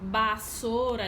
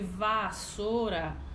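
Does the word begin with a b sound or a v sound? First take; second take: b sound; v sound. First: The word begins with a b sound. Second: The word begins with a v sound. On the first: This is a regional, community-specific pronunciation. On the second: This is the standard pronunciation.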